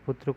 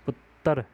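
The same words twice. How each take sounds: First: The word is said in standard Hindi style. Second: The word is said in Punjabi regional style.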